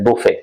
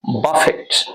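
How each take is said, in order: First: The word ends without any t sound. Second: The word ends with a pronounced t sound. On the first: The word is used as a different part of speech. "उसमें इसको बफेट नहीं pronounce करेंगे।" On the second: To strike sharply, especially with the hand. "ये एक verb है।"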